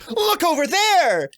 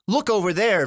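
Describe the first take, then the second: First: It is said with more energy and drive. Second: It is said calmly, with little energy. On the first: "Second one I like flung my arm and freaking threw it forward and pointed" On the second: "first one I wasn't moving"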